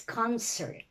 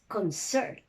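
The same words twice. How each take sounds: First: The stress is on the first syllable. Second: The stress is on the second syllable. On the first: The word is used as a noun. "Noun, you say it's" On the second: The word is used as a verb. "Verb is"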